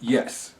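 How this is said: It is said in a flat, matter-of-fact tone. It is a plain statement of fact.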